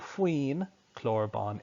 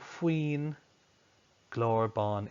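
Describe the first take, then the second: First: The second word starts with a k sound. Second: The second word starts with a g sound. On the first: "That starts with a k" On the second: "what uru should it get?"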